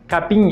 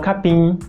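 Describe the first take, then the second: First: The final m is said like an n. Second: The final m is said with closed lips. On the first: "pronunciar como se fosse um N os M's nos finais das palavras" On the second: "e não"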